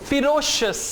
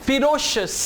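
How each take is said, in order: The two takes are said the same way.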